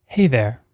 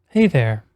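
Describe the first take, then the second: No difference in how they are said.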